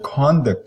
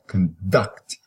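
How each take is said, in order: First: The stress is on the first syllable. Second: The stress is on the second syllable. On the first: "you notice that vowel is longer. It is, the whole syllable is exaggerated, is stressed" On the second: "use a schwa here and then put the emphasis on the second part"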